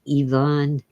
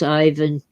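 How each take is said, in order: First: The name is said the original native way. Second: The name is said the usual English way.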